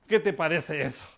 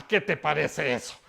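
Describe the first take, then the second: No difference in how they are said.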